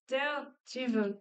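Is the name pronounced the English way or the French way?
English. The name is pronounced the English way. The speaker calls it right. "but no, it's Daredevil"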